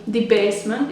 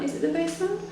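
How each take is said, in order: First: Said in the usual way. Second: "Is it the basement?" asked with a high rising doubtful tune on basement; unsure question. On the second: Real, not acted. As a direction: check yourself, lifting up on basement.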